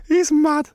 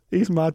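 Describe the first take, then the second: First: Laughs it out, higher; breaking into a laugh at the absurdity. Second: Said in the usual way. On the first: Real, not acted. Co-host laughs at the fighter's antics, laughing.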